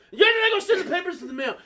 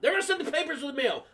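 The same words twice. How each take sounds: First: High, fast, loud yell; mom yelling. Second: High, fast, hurried relay; mom relaying news. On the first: Mom turning from the phone to son, yelling. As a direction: snap it out loudly and quickly. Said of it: "like, yelling at me". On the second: Mom between son and principal on phone, hurried relay. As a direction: rattle it off up high. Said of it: "talking to me and the principal". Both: Retold or imitated.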